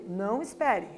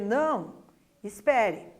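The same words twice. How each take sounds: First: The two words run together without a pause. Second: There is a pause between the two words. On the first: "Outra coisa é eu não espere, eu dizer isso" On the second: "Uma coisa é eu dizer não, espere"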